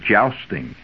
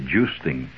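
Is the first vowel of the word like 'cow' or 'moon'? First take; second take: cow; moon. First: The first vowel sounds like the vowel in 'cow'. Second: The first vowel sounds like the vowel in 'moon'. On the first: This is the common pronunciation. The speaker calls it wrong. "Now most people call it jousting" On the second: This is the correct, more accepted pronunciation. The speaker calls it right. "It's actually joosting. And, yes, it's a correct, more accepted English pronunciation"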